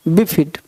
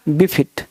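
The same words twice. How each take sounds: No difference in how they are said.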